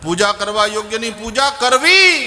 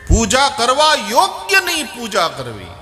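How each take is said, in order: First: The stress falls on the word કરવી. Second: The stress falls on the word યોગ્યની. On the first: "કરવી શબ્દ ઉપર ભાર આપો" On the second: "આ યોગ્ય શબ્દ ... ઉપર ભાર આપો"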